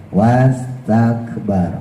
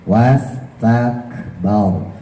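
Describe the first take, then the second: Both takes have the same delivery.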